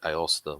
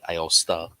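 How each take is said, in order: First: The final A is said plainly, without emphasis. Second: The final A is said with extra flair. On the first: "I've always said Aosta myself" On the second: "unless you have enough flair on the last A at the end"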